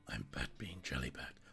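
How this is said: It is said in a deep, throaty put-on voice. The speaker calls it right.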